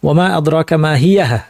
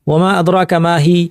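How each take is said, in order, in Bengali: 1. শেষ শব্দটি 'yah' দিয়ে শেষ হয়, শেষে একটি h সহ। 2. শেষ শব্দটি একটি লম্বা 'ee' ধ্বনি দিয়ে শেষ হয়। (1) "এরপরে একটা হা সাকিন দিয়ে থামা যাবে" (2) "মা হি বলতে আমার কাছে ধরেন ভালো লাগছে না"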